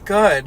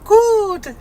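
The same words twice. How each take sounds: First: It is said in the narrator's normal voice. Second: It is said in a put-on high voice. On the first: The speaker calls it wrong. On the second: The speaker calls it right.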